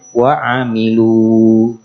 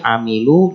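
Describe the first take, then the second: First: The final vowel is long. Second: The final vowel is short. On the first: The reading stops on this word. "kalau berhenti, nah kembali ke aslinya" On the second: The reading continues into the next word. "lu-nya pendek"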